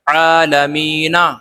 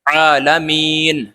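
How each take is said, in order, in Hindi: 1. शब्द n के बाद एक आखिरी स्वर पर खत्म होता है। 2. शब्द n पर खत्म होता है, उसके बाद कोई स्वर नहीं। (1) "वैसे तो पढ़ा जाएगा ये आलमीना" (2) "यहां रुकने की वजह से"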